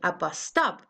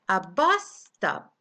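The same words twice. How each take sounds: First: The stress is on the word stop. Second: The stress is on the word bus. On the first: The speaker calls it wrong. "You don't say a bus stop" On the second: The speaker calls it right. "You say a bus stop"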